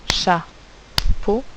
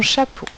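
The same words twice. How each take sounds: First: "Chapeau" split in two beats, cha, then po; syllable by syllable. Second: Said in the usual way. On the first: Shown as a demonstration. Teacher tapping syllables with the class, "Chapeau" split cha - po. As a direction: tap out "Chapeau" with a clear gap between syllables. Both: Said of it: "si on tape les syllabes".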